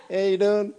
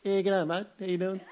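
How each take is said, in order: First: Aussie greeting through laughter; laughing greeting. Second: Laid-back Aussie g'day; laconic outback drawl. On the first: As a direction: break up laughing mid-greeting. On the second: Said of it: "a low voice". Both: Shown as a demonstration.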